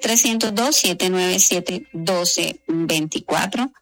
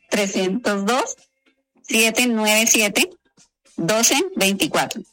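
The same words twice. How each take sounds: First: It is said quickly. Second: It is said at normal pace.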